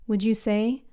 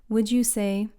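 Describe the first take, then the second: The two takes are said the same way.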